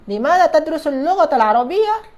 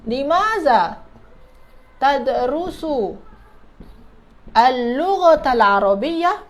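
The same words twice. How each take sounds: First: Said in the usual way. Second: Slow, stretched words with pauses between; piece-by-piece modelling. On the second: Shown as a demonstration. Teacher building the Arabic question for students, slow word by word.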